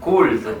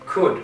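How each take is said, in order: First: The final d sound is dropped. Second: The final d sound is clearly pronounced. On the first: The speaker calls it wrong. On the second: The speaker calls it right.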